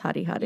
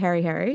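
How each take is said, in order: First: It is said with a Māori pronunciation. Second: It is said with an English-style pronunciation. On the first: This is how the town's name is really said. The speaker calls it right. "it's obviously pronounced Hari Hari" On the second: This is how the name was said in childhood. The speaker calls it wrong. "I called my teddy bear Harry Harry"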